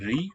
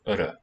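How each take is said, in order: First: It sounds like r followed by an ee vowel. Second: It sounds like a short vowel, r, short vowel. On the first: The speaker calls it wrong. "it's not really ri" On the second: The speaker calls it right. "That's probably how this vocalic R sounded"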